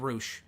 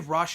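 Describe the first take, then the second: First: The name rhymes with 'whoosh', with a long vowel. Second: The name rhymes with 'hush', like the band. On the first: The speaker calls it right. "I meant [name]" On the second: The speaker calls it wrong. "did I say Rush?"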